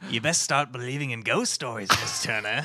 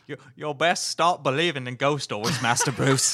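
First: Lightly voiced movie pirate captain, lower pitch; Jeffrey Rush. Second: Put-on rough British butler accent; attempted British accent. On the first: Podcaster trying an actor's ghost-story line, shaky Jeffrey Rush impression. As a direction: attempt at a low, ominous film-villain line. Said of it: "your Jeffrey Rush isn't working". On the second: Podcaster retrying the ghost-story line for friends, British butler accent. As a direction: try a British manservant's accent, amused. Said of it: "accent you were trying".

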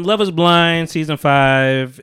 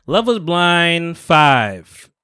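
First: Slow, louder announcer read; show title announcement. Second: Slow, loud, drawn-out show title; dramatic title drawl. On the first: Host reintroducing the show name, slow and loud. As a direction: announce the season like a promo. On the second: Podcast host hyping the show name, slow and loud. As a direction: announce it like a TV host. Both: Acted.

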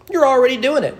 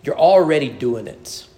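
First: You're already doing it, pitched higher and louder, with the punch on YOU'RE; a louder, higher insistence on YOU'RE; emphatic repeat. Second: Said in the usual way. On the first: Shown as a demonstration. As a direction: drive YOU'RE home the second time round.

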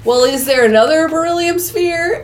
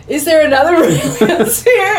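First: Slightly hammed-up group question, higher; mock-earnest question, lifted pitch; crew asking. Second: Higher, laughing mock repeat; hammed-up relay to the computer; relaying the question. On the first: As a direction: voice the crew asking, lightly acted. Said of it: "They're all like". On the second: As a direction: imitate her repeating it, breaking into laughter. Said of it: "she's repeating what the computer says".

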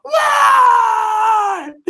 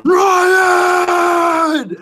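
First: Very high shout, as if from far off in the house; distant yell. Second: Very high, loud bellow up the house; yelling a name. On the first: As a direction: yell it like it comes from deep in the background. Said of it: "deep in the background, you'd hear". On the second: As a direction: holler for the kid across the house. Dad yelling for son. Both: Retold or imitated.

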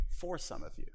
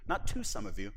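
First: FOR hit and then a soft fall; stress on FOR. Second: TO lifted and held before a falling close; stress on TO. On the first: Preacher correcting himself, stressing FOR. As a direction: lean on FOR to correct the word. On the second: Preacher correcting himself, stressing TO. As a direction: contrast the preposition TO. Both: Shown as a demonstration.

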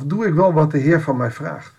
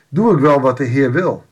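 First: Wel stressed, rising at the end. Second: Doe hit first, falling question; stress on doe. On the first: Preacher asking himself, stressing wel with a rise. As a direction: lean on the word wel and lift the question. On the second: Preacher pressing the congregation, Doe stressed and falling. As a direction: open hard on Doe and let it drop. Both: Real, not acted. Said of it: "dan denk ik meteen ook voor mezelf".

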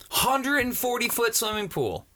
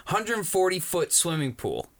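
First: Hundred said higher and punched, correcting the number; stress on Hundred. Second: Said in the usual way. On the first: Shown as a demonstration. Correcting his friend on the pool size, stressing Hundred. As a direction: lean on Hundred and forty, setting the number straight.

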